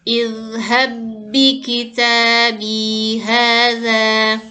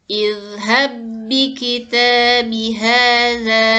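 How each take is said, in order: The two takes are said the same way.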